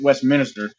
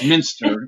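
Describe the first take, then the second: First: The ending sounds like 'minister', with an extra vowel. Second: The ending sounds like 'minster', with no extra vowel. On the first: The speaker calls it wrong. "that's how I was pronouncing it" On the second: The speaker calls it right. "but it's Minster"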